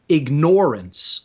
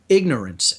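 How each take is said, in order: First: The stress is on the second syllable. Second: The stress is on the first syllable. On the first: Willfully ignoring something that is there. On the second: Simply not knowing something.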